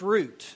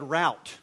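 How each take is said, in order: First: The word is pronounced like 'root'. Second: The word is not pronounced like 'root'. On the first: The speaker calls it right. "the dictionary definition pronunciation is R-O-O-T" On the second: The speaker calls it wrong. "I think in my head"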